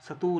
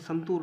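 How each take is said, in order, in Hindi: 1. t से पहले n की ध्वनि नहीं है। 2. t से पहले n की ध्वनि है। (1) "सतूर है फ्रेंड्स" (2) "ये संतूर नहीं है"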